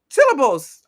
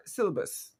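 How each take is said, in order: First: "Syllables" loud and higher, ending in -bulz; corrected word. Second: "syllabus" ending in a soft -bus; slip on syllables. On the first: Host correcting a slip on the card, emphatic "Syllables". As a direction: punch out "Syllables" with a clear -bulz. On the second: Host muddling the card's word, mispronounced "syllabus". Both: Real, not acted. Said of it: "I'm syllabus".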